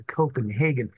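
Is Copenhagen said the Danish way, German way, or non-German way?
non-German. It is said in a non-German pronunciation. This is the preferred way to say it. "stressed that you should say Copenhagen"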